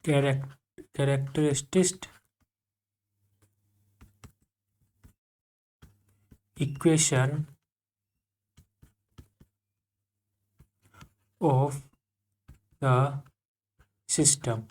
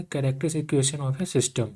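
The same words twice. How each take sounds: First: Drawn out word by word with long gaps; very slow dictation. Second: Slowish topic announcement; name the next topic calmly; announcing the topic. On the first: Teacher dictating the topic name, very slow. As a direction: dictate each word for the notebook. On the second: Teacher introducing the next topic, slowly. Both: Shown as a demonstration. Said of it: "क्या है?".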